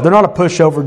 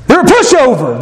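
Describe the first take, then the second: First: Said in the usual way. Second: High-pitched, mocking put-down; acted contempt, pitched up; scornful dismissal. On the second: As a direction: write them off with exaggerated scorn. Old judgment, then corrected.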